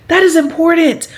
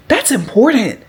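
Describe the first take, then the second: First: "is" lifted high, That IS important; stress on is. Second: Said in the usual way. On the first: Real, not acted. Telling viewers savings matter, stressing "is". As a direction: lean hard on "is" to insist.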